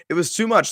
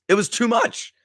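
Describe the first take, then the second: First: Said in the usual way. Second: Overwhelmed. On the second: Real, not acted. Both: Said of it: "couldn't contain myself".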